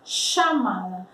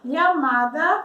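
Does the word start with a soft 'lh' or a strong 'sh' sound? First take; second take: sh sound; lh sound. First: The first consonant is a strong 'sh' sound. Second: The first consonant sounds like a soft 'lh'. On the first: This is how it is said in Argentina, Uruguay and Paraguay. "Mais forte o som" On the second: This form is not commonly used. "como se fosse um L H"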